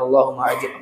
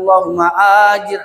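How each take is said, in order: First: The vowel at the start of 'ajir' is short. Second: The vowel at the start of 'ajir' is long. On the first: It asks to be protected from the fire. The speaker calls it right. "Pendek kan A-nya" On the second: It asks to be repaid with the fire. The speaker calls it wrong. "kalau Bapak panjangkan A-nya satu alif dua harokat"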